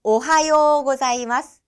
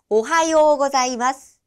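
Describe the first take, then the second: First: Slow 오하요 고자이마스 with the 요 drawn out long; drawn-out ohayō for learners to copy; slow long-vowel demo. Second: 오하요 with the 요 held long, as ohayō; teacher demo of 오하요 고자이마스 with a long 요; long yo vowel. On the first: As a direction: say 오하요 고자이마스 slowly, holding the 요. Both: Shown as a demonstration. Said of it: "라고 발음이 되는 거죠".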